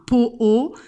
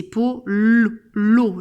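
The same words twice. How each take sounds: First: "po-o" with the L left out; wrong version "po-o", two separate O sounds; missing consonant. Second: "po-lo" with a long, held L; loud "po-llllo", consonant stretched out; emphasised L. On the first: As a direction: say "po-o" as two bare vowels, no L. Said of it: "ce n'est pas un po-o". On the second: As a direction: say "po-lo" slowly, leaning hard on the L. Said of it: "c'est po-lo". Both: Shown as a demonstration.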